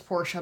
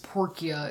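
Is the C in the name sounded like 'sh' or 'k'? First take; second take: sh; k. First: The middle consonant is a soft 'sh' sound. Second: The middle consonant is a hard 'k' sound. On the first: The speaker calls it right. "I really hope it's Portia" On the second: The speaker calls it wrong. "Porcia is god-awful"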